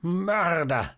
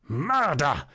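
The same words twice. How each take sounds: First: High, shrill shriek of accusation; crazed, ringing cry; piercing scream. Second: Higher-pitched scream forced through the teeth; tight, half-held-back shriek; cry through teeth. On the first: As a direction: shriek it out, out of your senses. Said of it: "tönte aber die gellende Stimme". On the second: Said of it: "mehr durch die Zähne als laut ausgestoßenen Schrei". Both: A narrator's reading.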